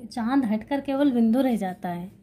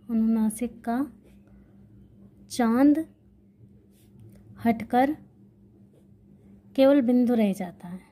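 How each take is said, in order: First: Said in the usual way. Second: Word by word with long pauses between; slow dictation. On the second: Shown as a demonstration. Teacher dictating the rule for students to note down, slow with pauses. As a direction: dictate it slowly so students can write. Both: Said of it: "तो".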